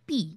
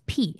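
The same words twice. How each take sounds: First: The p sound has no puff of air. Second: The p sound has a strong puff of air. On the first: The speaker calls it wrong. "It's not পি" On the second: The speaker calls it right. "It's পি"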